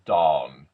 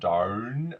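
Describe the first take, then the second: First: The vowel is a clean, straight aw. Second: The vowel is bent toward an or sound. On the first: The speaker calls it right. "a nice, clean, straight aw" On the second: The speaker calls it wrong. "I can manipulate this like the or"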